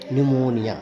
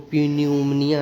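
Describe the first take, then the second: First: The word begins with an n sound. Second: The word begins with a p sound. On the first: The speaker calls it right. "यहाँ भी पी silent रहेगा" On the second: The speaker calls it wrong. "इसको प्यून्यूमनिया नहीं पढ़ना है"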